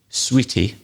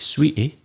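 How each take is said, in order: First: The middle t is fully pronounced. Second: The middle t is a glottal stop. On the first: "We don't say sweetie" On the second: "we have this glottal stop. ... We say sweetie"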